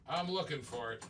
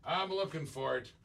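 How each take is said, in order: Both takes have the same delivery.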